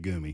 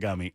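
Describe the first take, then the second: First: The first vowel sounds like the 'oo' in 'goo'. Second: The first vowel sounds like the 'u' in 'gum'. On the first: The speaker calls it right. "I had a goomy" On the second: The speaker calls it wrong. "I said it wrong"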